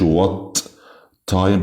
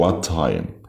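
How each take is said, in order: First: Both t sounds are pronounced separately. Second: The two t sounds merge into one. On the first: The speaker calls it wrong. "وما بقولش what time" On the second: The speaker calls it right. "بقول what time"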